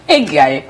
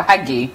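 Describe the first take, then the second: First: "Haggai" ending like "eye"; unsure pronunciation. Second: "Haggai" ending like "ee"; second-guess pronunciation. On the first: Host trying out a commenter's name, "Haggai" ending in "eye". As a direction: say "Haggai" as "eh-GUY". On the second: Host correcting a guess at a commenter's name, "Haggai" ending in "ee". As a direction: say "Haggai" as "HAG-ee", a little softer. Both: Shown as a demonstration. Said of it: "I'm not sure how to pronounce that".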